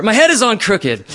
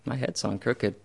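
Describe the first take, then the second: First: Loud, high furious complaint; replayed anger, loud and high; angry. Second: Soft, resigned and settled; just let it be true, softly; quiet calm acceptance. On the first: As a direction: rage at your own body, loud and high. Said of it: "moved right into anger". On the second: Retold or imitated. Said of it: "And it was acceptance".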